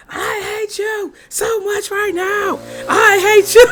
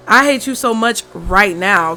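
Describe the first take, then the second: First: Scream-sing it out the window at the noisy neighbour; sung, shouted song line. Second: Said in the usual way. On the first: Retold or imitated. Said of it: "just play that Khalees song".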